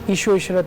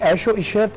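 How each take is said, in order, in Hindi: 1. पहला शब्द छोटे 'i' स्वर से शुरू होता है। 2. पहला शब्द साफ़ 'ai' स्वर से शुरू होता है।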